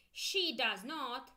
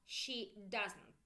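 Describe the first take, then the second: First: Slow and a little louder; full form she does not. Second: Said in the usual way. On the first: Shown as a demonstration. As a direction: spell out each word. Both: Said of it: "So let's go".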